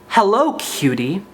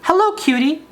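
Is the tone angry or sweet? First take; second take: angry; sweet. First: It is said in an angry voice. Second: It is said in a sweet little voice.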